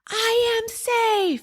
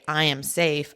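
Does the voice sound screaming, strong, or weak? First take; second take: screaming; strong. First: It is screamed very loudly with full force. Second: It is said firmly, with a steady, strong voice. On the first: The person truly feels and believes it. "she's like screaming" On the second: The person is choosing to feel confident. "I'm going to be strong and say"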